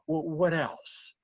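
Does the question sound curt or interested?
interested. The question sounds warm and interested. The asker is genuinely keen to hear more. The speaker calls it right. "it's the right inflection"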